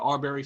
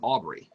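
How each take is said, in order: First: The name is said as Arbery. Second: The name is said as Aubrey. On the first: The speaker calls it right. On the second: The speaker calls it wrong.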